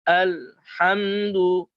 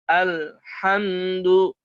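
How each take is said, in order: Both takes have the same delivery.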